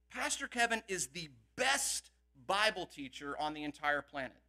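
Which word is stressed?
best. The word best is stressed.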